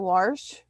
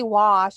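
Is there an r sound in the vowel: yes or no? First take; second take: yes; no. First: It has an added r, Pennsylvania Dutch style. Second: It is said without an r sound.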